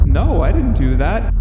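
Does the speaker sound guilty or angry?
guilty. It sounds caught and guilty.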